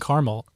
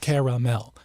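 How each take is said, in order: First: The middle vowel is dropped, giving two syllables. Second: The middle vowel is sounded, giving three syllables. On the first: The speaker calls it wrong. "I grew up saying caramel" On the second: The speaker calls it right. "it's got a second A in there. It's caramel"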